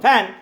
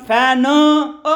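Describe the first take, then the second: First: The word ends cleanly on the final n. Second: An extra vowel is added after the final n. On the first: The speaker calls it right. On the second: The speaker calls it wrong.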